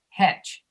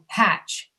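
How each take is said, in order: First: The vowel is said with the mouth barely dropped. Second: The vowel is said with the mouth dropped wide. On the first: "You're saying like hetch" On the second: "the second time you're saying hatch"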